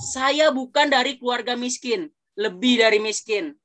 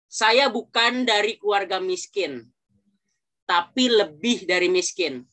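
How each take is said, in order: First: It is said fast, without a pause. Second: It is said slowly, with a pause.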